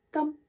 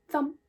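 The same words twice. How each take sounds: The two takes are said the same way.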